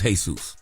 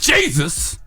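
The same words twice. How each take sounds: First: It is said in a Spanish accent. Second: It is said in a Black American accent. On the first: "The Spanish version is Jesus"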